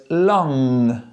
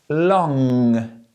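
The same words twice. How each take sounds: No difference in how they are said.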